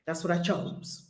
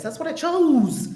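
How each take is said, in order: First: Soft, low murmur to herself; half to herself, letting it sink in; low private murmur of her choice; quiet reminder. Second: Higher, slow, leaning on chose; slow insistent "chose"; slow firm emphasis. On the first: Self-reminder repeated softly. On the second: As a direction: drive chose home deliberately. Same words repeated with emphasis. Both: Real, not acted.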